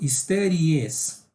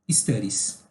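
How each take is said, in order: First: The ending is said as an extra syllable. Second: The ending adds only an s sound. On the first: The speaker calls it wrong. "senão você vai acabar falando studies. Você adiciona uma sílaba aí" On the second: The speaker calls it right. "é simplesmente studies"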